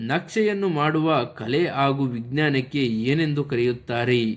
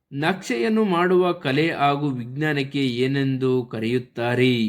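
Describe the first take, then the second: No difference in how they are said.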